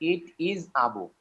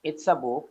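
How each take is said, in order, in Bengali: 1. 'It is' দুটি আলাদা শব্দ হিসেবে বলা হয়। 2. 'It is' একটি শব্দাংশে সংক্ষিপ্ত হয়ে যায়।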